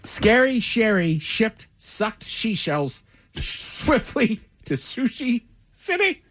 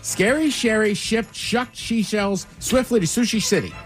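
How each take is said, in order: First: It is said at a normal pace. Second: It is said quickly.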